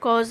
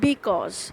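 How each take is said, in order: First: The first syllable is dropped, leaving cause. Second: The word is said with both syllables. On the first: "you have to read it like this" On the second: "It is the short form of"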